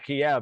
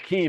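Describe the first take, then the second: First: It is pronounced as Kiev, the traditional form. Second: It is pronounced as Kyiv, the newer form. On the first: This is the name used for centuries. The speaker calls it right. "like we've called it for fucking five hundred years" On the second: This is the name now used officially. The speaker calls it wrong. "the fact that we call it"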